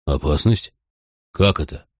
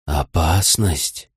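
First: "Опасность" lower, rising at the end; low, questioning echo on "Опасность"; puzzled question. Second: Very slow, low wolf voice; slow, hushed animal warning; whispering wolf. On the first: Narrator questions the wolf's warning. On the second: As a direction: draw the word out low as a wary wolf's warning. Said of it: "прошептал ночной волк". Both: A narrator's reading.

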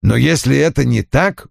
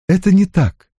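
First: Said in the usual way. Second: High-pitched contradiction; firm denial. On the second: Acted. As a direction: deny it in a higher voice. Ann firmly denies it. (возражая, высоким голосом)

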